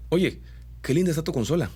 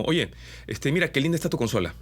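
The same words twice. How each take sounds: First: Hammed-up Mexican singsong, pitched up on "linda"; exaggerated Mexican accent. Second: Light Peruvian lilt, quick; casual Peruvian singsong on "consola"; Peruvian accent. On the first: Voice coach exaggerates a Mexican dubbing lilt. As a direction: sing the ending like a Mexican dubbing actor. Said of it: "si exagero un poco el dejo ... lo vuelvo medio mexicano". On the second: Voice coach demos a Peruvian lilt on a compliment. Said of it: "podría decir algo así como". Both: Shown as a demonstration.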